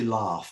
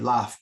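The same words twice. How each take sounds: First: It is said with a southern British vowel. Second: It is said with a northern British vowel. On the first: "down where you live, people say laugh" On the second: "I say laugh because I'm from the north of the U K"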